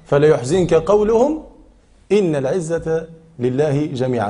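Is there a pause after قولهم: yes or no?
yes. It has a pause after قولهم. Do not grieve at their words; all honor belongs to God. The speaker calls it right. "هذا معنى الوقف"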